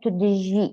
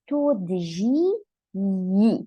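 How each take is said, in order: First: The final 'ye' syllable is dropped. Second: The final 'ye' syllable is clearly pronounced.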